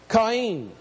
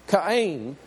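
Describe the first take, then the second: Both takes have the same delivery.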